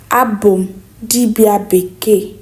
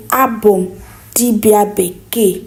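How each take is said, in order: Both takes have the same delivery.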